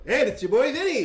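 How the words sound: It is said in a Daffy Duck-like voice.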